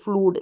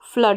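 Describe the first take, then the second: First: The vowel is a long 'oo' sound. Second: The vowel is a short 'uh' sound. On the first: The speaker calls it wrong. "फ्लूड नहीं" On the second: The speaker calls it right. "तो फ्लड हो गया"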